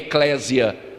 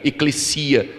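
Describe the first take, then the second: First: The middle consonant is a buzzing z sound. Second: The middle consonant is a hissing s sound. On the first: The speaker calls it wrong. "não é eclésia ... como casa no português" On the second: The speaker calls it right. "O S no grego nunca tem som de Z"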